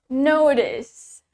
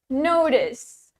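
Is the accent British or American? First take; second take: American; American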